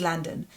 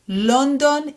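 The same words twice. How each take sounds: First: London as LUN-dn, open first vowel; English "London", reduced second vowel; English pronunciation. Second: London as LON-DON, two round O vowels; Hebrew pronunciation. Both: Shown as a demonstration. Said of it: "London is London".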